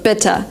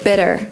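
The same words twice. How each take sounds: First: The middle consonant is a crisp, clear T. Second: The middle consonant is a soft D-like flap. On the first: "in Great Britain, they would say" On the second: "In American English, they would say"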